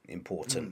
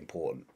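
First: The T is clearly pronounced, as in RP. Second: The T is a glottal stop.

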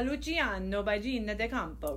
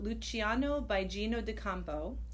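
First: The name is said in an Italian accent. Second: The name is said in a plain English accent.

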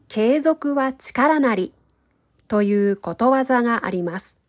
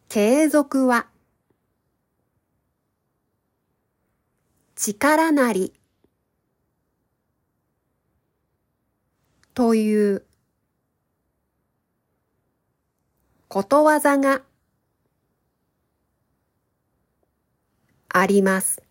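First: The sentence is spoken at a normal speed. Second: The sentence is spoken at a slow speed. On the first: "1 回目は、普通のスピードで話します。" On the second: "2 回目は、ゆっくり話します。"

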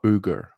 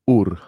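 First: The name is said with a hard G sound. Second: The name has no G and a rolled R. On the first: The speaker calls it wrong. "it's not Uger. I have been mispronouncing it this whole time" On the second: The speaker calls it right. "The G is silent. It's a rolling R"

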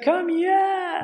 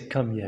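First: It sounds joyful and excited. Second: It sounds challenging and threatening.

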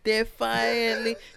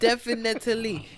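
First: The third syllable has an 'a' sound. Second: The third syllable has an 'i' sound. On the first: This is how the misspelled word would sound. The speaker calls it wrong. "If you sound out what you've written" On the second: This is how the real word sounds. The speaker calls it right. "and it's not definitely"

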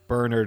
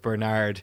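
First: The name is pronounced the Irish way. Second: The name is pronounced the American way. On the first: The speaker calls it right. "Like I say" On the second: The speaker calls it wrong. "instead of"

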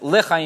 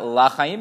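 First: The first vowel is a short, reduced e sound. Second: The first vowel is a full, open a sound. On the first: It means to life. The speaker calls it right. "yomar bishva" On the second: It means to the life. The speaker calls it wrong. "velo yomar bepatach"

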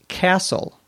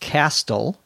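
First: The T is silent in the word. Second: The T is clearly pronounced in the word. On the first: The speaker calls it right. "silent T" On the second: The speaker calls it wrong. "not castle"

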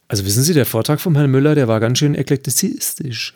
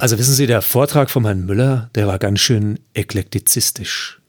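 First: It is said at a faster pace. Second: It is said at a slower pace.

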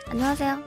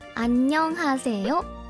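First: It is said quickly and casually. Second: It is said slowly, each syllable distinct.

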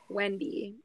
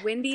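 First: The first vowel sounds like the e in 'bet'. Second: The first vowel sounds like the i in 'bit'.

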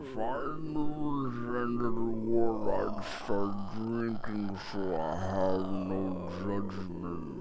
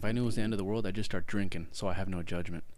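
First: It is said more slowly. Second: It is said at normal speed.

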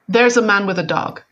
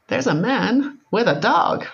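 First: It is said in a flat, neutral tone. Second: It is said with an emotional, loaded tone.

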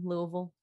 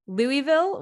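First: The name is swallowed into a reduced, slurred form. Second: The name is said fully, with every syllable clear. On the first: This is how locals in the city say it. "just kind of like ease into it, Louisville. Swallow it down" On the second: This is how outsiders and the news say it. "which is like how the news says it"

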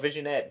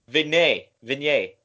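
First: It sounds like 'vision' followed by 'ette'. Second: It sounds like 'vin' followed by 'yet'. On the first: The speaker calls it wrong. "What was the word I couldn't say?" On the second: The speaker calls it right. "What's the proper way to say it?"

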